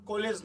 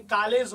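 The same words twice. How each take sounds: First: कॉलेज said with a rounded 'o', as kolej; with the O sound. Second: कॉलेज said with 'aa', as kaalej; without the O sound. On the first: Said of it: "इसमें ओ का sound होता है". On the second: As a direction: open 'aa' in the first syllable of कॉलेज. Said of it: "अगर ये नहीं होता". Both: Shown as a demonstration.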